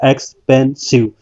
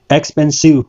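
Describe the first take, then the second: First: expensive drawn out slowly, syllable by syllable; slow syllable count. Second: Said in the usual way. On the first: Shown as a demonstration. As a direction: stretch expensive so all three sounds show. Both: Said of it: "इसमें तीन sound आई है".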